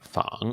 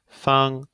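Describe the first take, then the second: First: The pitch dips low and then rises. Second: The pitch stays high and level. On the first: It means to imitate. "in the third tone, we have fang" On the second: It means square or convenient. "in the first one we have feng"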